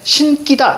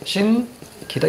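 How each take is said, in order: First: The second consonant is tense and hard. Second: The second consonant is plain and soft. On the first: The speaker calls it wrong. "이렇게 발음하면 안 됩니다" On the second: The speaker calls it right. "된소리로 발음하지 않아요"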